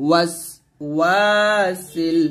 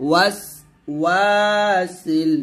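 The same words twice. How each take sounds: Both takes have the same delivery.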